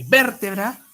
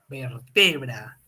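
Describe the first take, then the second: First: The stress is on the first syllable. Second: The stress is on the second syllable. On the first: It names the bone. "Hay vértebra" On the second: It names the action of joining. "La vertebra es la acción"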